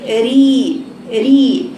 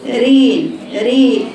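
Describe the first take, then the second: First: ري as a clean, held "ree"; correct pure i. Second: رين and ري as "rayn, ray"; wrong tilted i. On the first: Teacher isolating the right syllable, pure long ee. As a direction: keep the vowel of ري a pure ee. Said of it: "لكن تقولي". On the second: Teacher isolating the wrong syllable, vowel opened to e. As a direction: open the vowel of ري towards e. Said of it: "وليست". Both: Shown as a demonstration.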